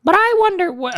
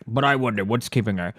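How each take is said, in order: First: Very high put-on voice; character voice. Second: Low put-on character voice. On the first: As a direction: pitch it right up for a comic character. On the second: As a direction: drop it low for a comic character. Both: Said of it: "I don't know whose voice this was".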